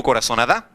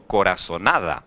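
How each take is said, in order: First: Coraçonada with the final DA stressed and rising like a question; wrong stress on last syllable. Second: Coraçonada with NA stressed, low and falling away on da; stress on next-to-last syllable. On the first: Teacher testing students with a wrong reading, coraçonada stressed on the final DA. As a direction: punch the ending, coraçonaDA, questioningly. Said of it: "Está na última sílaba. Eu digo coraçonada".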